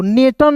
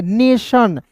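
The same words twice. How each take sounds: First: "नेटन" said with a hard T sound; wrong reading. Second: "नेशन" with TION said as "shan"; correct reading. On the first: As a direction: read the TION in "नेटन" as a plain "tan". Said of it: "नहीं पढ़ते". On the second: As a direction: model "नेशन" clearly, ending in "shan". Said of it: "तो नेटन नहीं पढ़ते". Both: Shown as a demonstration.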